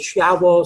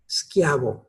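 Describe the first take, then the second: First: There is no k sound after the s. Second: A k sound follows the s. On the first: The speaker calls it wrong. "actually it's none of those" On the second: The speaker calls it right. "the S and then C H would be K"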